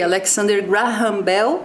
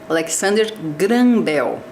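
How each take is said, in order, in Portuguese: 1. O nome é dito com pronúncia inglesa. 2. O nome é dito com pronúncia portuguesa. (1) "daqui a pouco a gente vai falar um pouquinho de inglês" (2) "é a pronúncia em português"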